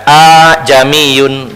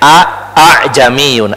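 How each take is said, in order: First: The second glottal catch is softened into lengthening. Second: Two separate glottal catches are clearly pronounced. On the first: "seolah-olah dipanjangkan, a'jamiyun begitu" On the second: "ada hamzah dua a a, sebenarnya a a'jamiyun, ada dua a"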